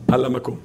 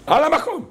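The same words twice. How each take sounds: First: Said in the usual way. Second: High-pitched shouted repeat; sudden emphatic outburst. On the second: Shown as a demonstration. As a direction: cry it out, pitched way up. Same phrase repeated as outburst.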